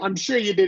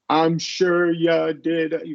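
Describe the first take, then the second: First: The phrase is said quickly and smoothly. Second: The phrase is said slowly and carefully. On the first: The speaker calls it right. "which sounds very normal" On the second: The speaker calls it wrong. "That sounds odd"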